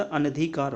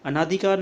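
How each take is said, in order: First: अनधिकार with a short na; correct pronunciation. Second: अनाधिकार with a long naa; wrong pronunciation. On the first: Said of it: "अनधिकार होता है". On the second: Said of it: "अनाधिकार नहीं होता". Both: Shown as a demonstration.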